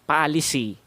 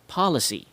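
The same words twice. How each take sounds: First: The unstressed vowels are full and clear. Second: The unstressed vowels are reduced to schwa. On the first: The speaker calls it wrong. "how Filipinos would usually pronounce it" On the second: The speaker calls it right. "how I pronounce it"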